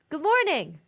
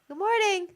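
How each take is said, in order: First: It is said in a perky, lively way. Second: It is said in a flat, less lively way.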